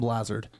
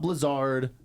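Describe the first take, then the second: First: The first vowel sounds like 'blaze'. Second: The first vowel sounds like 'blizz'. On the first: The speaker calls it right. "pronouncing the last name the right way" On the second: The speaker calls it wrong. "not Blizzard"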